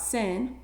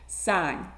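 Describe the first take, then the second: First: The vowel is short, rhyming with fin. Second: The vowel is long, rhyming with fine. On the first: The speaker calls it wrong. "It is not sin" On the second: The speaker calls it right. "Sine, that is the trig function"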